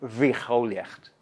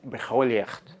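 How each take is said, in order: First: The word begins with a fricative consonant. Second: The word begins with a stop consonant. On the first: This is the lenited form of the word. "Pero aquí tenemos" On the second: This is the basic form of the word. "la palabra biología original es"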